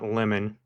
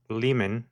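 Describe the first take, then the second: First: The word sounds like 'lemon'. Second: The word does not sound like 'lemon'. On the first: The speaker calls it wrong. "not lemon" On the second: The speaker calls it right. "derived from the Latin limen"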